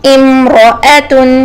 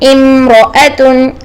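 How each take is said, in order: No difference in how they are said.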